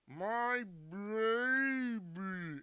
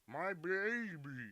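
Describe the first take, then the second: First: The phrase is drawn out slowly, like slow motion. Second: The phrase is said at full speed, deep-voiced. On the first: "when you talk like you're in slow motion" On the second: "If you just do that at like full speed"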